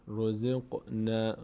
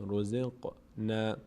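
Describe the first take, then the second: No difference in how they are said.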